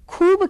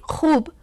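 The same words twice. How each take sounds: First: The first consonant is an aspirated stop sound. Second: The first consonant is a rough fricative sound. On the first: This is the form adapted to Hindi. "बेनुक्तेदार बनाया" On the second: This is the original borrowed form. "नुक्तेदार उच्चारण"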